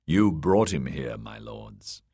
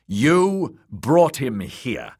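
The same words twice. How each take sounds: First: Cool, contained accusation, dropping away at the end; cold. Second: "You brought him here" slow, high and loud; emphatic accusation. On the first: Littlefinger blaming the lords for their guest, cold. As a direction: accuse coolly, letting the last words fall low. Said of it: "Littlefinger's voice had grown cold". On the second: Littlefinger repeating "You brought him here" to the lords, slow and emphatic. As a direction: drive home "You brought him here", drawn out and raised. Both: A narrator's reading.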